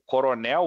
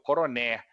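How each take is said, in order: First: The word ends with an l sound. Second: The word ends on an open e, without l. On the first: "O coronel" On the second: "é o coroné"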